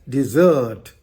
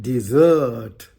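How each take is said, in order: The two takes are said the same way.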